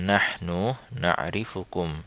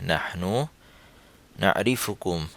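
Both takes have the same delivery.

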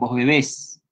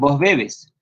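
First: The stress in bebés is on the last syllable. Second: The stress in bebes is on the first syllable.

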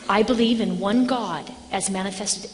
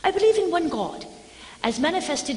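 First: It is said in the speaker's ordinary accent. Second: It is said in an Irish accent. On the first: The speaker calls it wrong. "Oh, I'm sorry" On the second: The speaker calls it right. "Irish accent"

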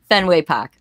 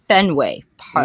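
First: It is said in the speaker's own local accent. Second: It is said carefully in a standard pronunciation. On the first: "I want you to say what you say" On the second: "I'll say it properly"

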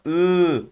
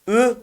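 First: The vowel is drawn out long. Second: The vowel is short.

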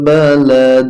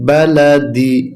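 First: The word ends on a bare 'd' consonant. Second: The word ends with a short 'i' vowel. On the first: The recitation stops at this word. "যখন আমরা এখানে থেমে যাব তখন উচ্চারণটা হবে" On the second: The recitation continues without stopping. "দাল জেড দি"

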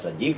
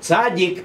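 First: It is said the modern Hebrew way. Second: It is said the Ashkenazi way. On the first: "на иврите говорят цадик" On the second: "это ашкеназийское произношение"

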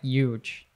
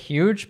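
First: The word begins with a Y sound. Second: The word begins with an H sound. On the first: "he almost says it like there's a Y there" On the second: "I would say huge"

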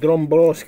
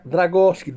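First: It has a nasal 'om' sound, Polish style. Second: It is read with plain Italian letter sounds. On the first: "come si dice" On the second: "io continuo sempre a dire Dragowski"

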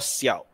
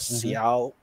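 First: The tone is said plainly, in a casual way. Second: The tone is said fully, in a formal way. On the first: This is the everyday way to say it. "In normal way, you call Xiao" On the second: This is the way to say it in a formal speech. "If you want to be fancy in the oratory, in a fancy show or fancy speech, it's called Xiao"

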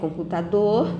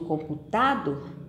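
First: The stress is on the fourth syllable. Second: The stress is on the third syllable. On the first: The speaker calls it right. "se eu disser computador, eu sei que a última sílaba, dor, é a mais forte" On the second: The speaker calls it wrong. "Eu digo computador? Não"

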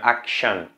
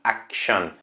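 First: The middle consonant is a soft 'sh' sound. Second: The middle consonant is a soft 'sh' sound.

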